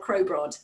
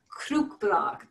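First: It is said with English sounds. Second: It is said with Norwegian sounds. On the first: The speaker calls it wrong. "that's much more English" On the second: The speaker calls it right. "a Norwegian student was not letting me leave until I was saying Krukbragd"

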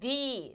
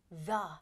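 First: The word is said like thee. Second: The word is said like thuh. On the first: "이렇게 a로 시작하는 거 앞에서는 the" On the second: "그렇지 않으면 the"

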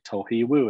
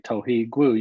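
First: The last syllable begins with a W sound. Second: The last syllable begins with a G sound. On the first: "gwu is pronounced wu with just a W sound" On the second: "So you don't have to say tohi gwu"

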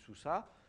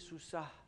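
First: The final h is weakened and barely heard. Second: The final h is clearly pronounced as a consonant. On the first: "Ils disent « sous ça », le « e » c'est quand même affaibli" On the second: "théoriquement, il faut prononcer sous ça"

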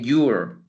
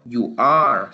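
First: The words are joined into one short syllable. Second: Both words are said fully and separately. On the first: "sino que you're" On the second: "Y ya no voy a pronunciarlo you are"

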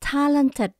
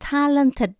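First: The final D is said lightly. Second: The final D is said strongly and heavily. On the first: The speaker calls it right. "mình đọc chữ D nhẹ" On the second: The speaker calls it wrong. "mình không đọc là talented. Không đọc được chữ đò to như vậy"

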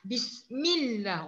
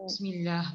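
First: The double L sound is held and stressed. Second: The double L sound is short and unstressed. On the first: The speaker calls it right. "Sepatutnya kita ni bismillah" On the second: The speaker calls it wrong. "Kita ni kan cuma tu kan?"

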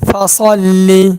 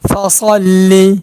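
The two takes are said the same way.

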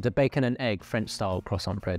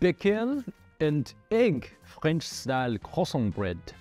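First: It is said in the speaker's normal accent. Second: It is said in a put-on French accent. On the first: "if my accent was terrible" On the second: "I'm pretty bad at the French accent"

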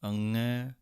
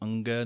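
First: The middle consonant is a plain ng sound. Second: The middle consonant has a hard g after ng. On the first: The speaker calls it right. "ngੰਗੇ ਦੀ ਆਵਾਜ਼ ਦੇਣੀ ਹੈ" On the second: The speaker calls it wrong. "ਇਹਨੂੰ ਅੰਗੈ ਨਹੀਂ ਕਹਿਣਾ ਹੈ"

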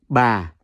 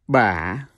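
First: The pitch starts low and falls gently. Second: The pitch dips down and then rises. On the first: "the second one is Yau Huyền. See the second Huyền. So that's Ba" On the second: "The third one is Yau Hỏi. See that question mark? So you pronounce it as Ba"

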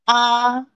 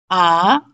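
First: The syllable is said with the first tone. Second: The syllable is said with the second tone. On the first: "first tone" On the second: "second tone"

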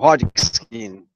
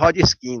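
First: The name is given an attempted English pronunciation. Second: The name is said in a Bahian Portuguese accent. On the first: "Eu não sei se é assim que pronunciando" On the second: "Na Bahia ele seria Hodgkin"

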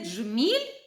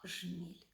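First: The word begins with a dzh sound. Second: The word begins with a plain zh sound. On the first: This is the standard form. "замінюємо звукосполуки дж і дз на з і ж" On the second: This is the regional dialect form. "замінюємо звукосполуки дж і дз на з і ж"

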